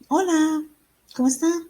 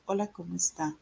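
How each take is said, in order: First: High, lively, louder Spanish hello; animated, sing-out greeting rising at the end; expressive greeting. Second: Drained, monotone Spanish greeting; neutral tone. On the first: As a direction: greet with a big lift in pitch. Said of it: "you sound like". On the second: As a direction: say it with no expression at all. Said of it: "neutral tone of voice". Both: Shown as a demonstration.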